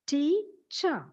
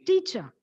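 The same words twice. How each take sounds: First: "teacher" in two drawn-out parts, tea, cher; split into syllables. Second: Said in the usual way. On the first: Shown as a demonstration. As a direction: pause between the two halves of "teacher". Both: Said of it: "two parts".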